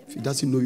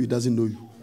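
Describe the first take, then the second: First: Know stressed in If he doesn't know you. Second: Doesn't stressed, falling, in he doesn't know you. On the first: Pastor warns congregation God must recognize them, know stressed. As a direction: lean on know. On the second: Pastor repeats warning to congregation, doesn't stressed. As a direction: lean on doesn't, let it fall. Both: Shown as a demonstration.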